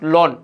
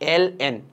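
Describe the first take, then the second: First: It is said as one single word. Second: It is spelled out as two letters. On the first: The speaker calls it wrong. "অনেকে তোমার লন বলো" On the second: The speaker calls it right. "এটা actually উচ্চারণ হচ্ছে এল এন"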